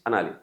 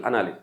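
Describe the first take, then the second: No difference in how they are said.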